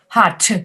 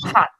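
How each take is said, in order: First: The final T is released with air. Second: The final T is held without air. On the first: The speaker calls it wrong. "you don't want to go hot" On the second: The speaker calls it right. "just hot"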